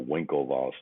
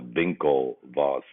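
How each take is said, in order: First: The name begins with a W sound. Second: The name begins with a V sound. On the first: This is how most Americans say the name. "most Americans call them simply the Winklevoss twins" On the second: This is the German way of saying the name. "as in V as the beginning of the W uh, pronunciation, which is the German way of saying it"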